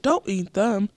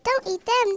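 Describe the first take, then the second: First: It is said in a low voice. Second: It is said in a tiny voice.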